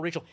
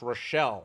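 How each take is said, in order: First: "Rachel" said the ordinary way, RAY-chel; Rachel spelled name. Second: "Rochelle" said ro-SHELL, stress on the second syllable; Southern name Rochelle. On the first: Telling how the roommate corrects her name, plain "Rachel". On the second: Roommate insists on her name, "Rochelle" with stress on SHELL. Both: Retold or imitated. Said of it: "It's pronounced Rochelle".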